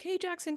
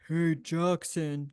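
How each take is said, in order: First: The voice is at its normal pitch. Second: The voice is lowered and deep. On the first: The request is easy to ignore. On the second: The request must be obeyed.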